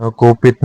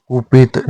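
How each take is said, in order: First: कोपित opening on ko; wrong form. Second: कुपित opening on ku; correct form. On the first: Teacher showing learners the mistake, कोपित with o. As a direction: say कोपित as ko-pit. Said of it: "नहीं होता". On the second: Teacher giving the correction, कुपित with u. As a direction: say कुपित as ku-pit. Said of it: "होता है". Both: Shown as a demonstration.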